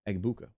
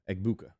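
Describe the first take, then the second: The two takes are said the same way.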